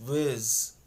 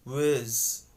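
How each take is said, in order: Both takes have the same delivery.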